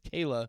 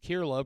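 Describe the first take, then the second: First: The first syllable sounds like 'kay' without r. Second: The first syllable sounds like 'keer' with an r. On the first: The speaker calls it right. "but no, apparently it's Kayla" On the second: The speaker calls it wrong. "I always thought it was just Kirla, pronouncing it phonetically"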